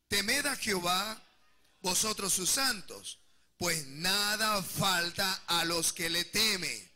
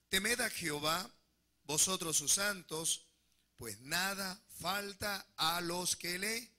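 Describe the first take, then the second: First: It is read with enthusiasm and conviction. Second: It is read calmly, without special enthusiasm.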